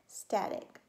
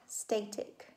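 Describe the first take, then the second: First: The first vowel is a short 'a' sound. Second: The first vowel is a long 'ay' sound. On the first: The speaker calls it right. "That would make my first syllable closed. So then it would be static" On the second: The speaker calls it wrong. "That would make the first syllable open, the second syllable closed. So that would be static"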